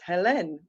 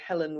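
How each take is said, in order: First: The name is said the way a French speaker would. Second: The name is said the usual English way.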